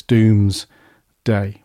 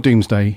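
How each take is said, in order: First: DOOMS stretched very long, a pause, then DAY; portentous DOOMSDAY. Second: Said in the usual way. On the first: Shown as a demonstration. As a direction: draw Doomsday right out in two slow, weighty halves. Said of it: "I have to say it like that". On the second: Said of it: "It's not Doomsday, it's Doomsday".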